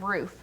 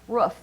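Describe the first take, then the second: First: The vowel is long, as in food. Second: The vowel is short, as in book. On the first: This is the usual way of saying it. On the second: This is the local way of saying it.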